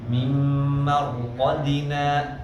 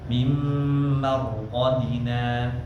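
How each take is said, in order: First: The word ends with a glottal catch. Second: The word ends with a plain stop, no catch. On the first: The speaker calls it wrong. "jangan sampai ada hamzahnya" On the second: The speaker calls it right.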